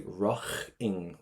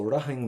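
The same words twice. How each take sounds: First: Raching with a strong throaty CH, as in "loch"; raching said "RAKH-ing", the CH strongly sounded. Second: Said in the usual way. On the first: Shown as a demonstration. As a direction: punch a hard "kh" in the middle of raching. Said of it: "with a strong C H". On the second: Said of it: "if you wanna say raching with a strong".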